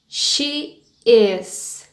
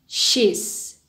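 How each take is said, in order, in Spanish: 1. Se dice como dos palabras separadas. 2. Se dice como una sola sílaba contraída.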